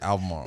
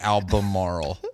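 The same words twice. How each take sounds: First: The b is dropped and the word runs together. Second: Every letter is sounded, including the b. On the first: A local said it. The speaker calls it right. "We just say Albemarle. You just have to forget that there's a B there" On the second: Someone unfamiliar with the local name said it. The speaker calls it wrong. "We don't say like Albemarle"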